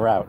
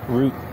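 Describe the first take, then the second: First: It is said with a non-Canadian pronunciation. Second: It is said with the Canadian pronunciation. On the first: "instead of" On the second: "that's how uh, Canadians say it"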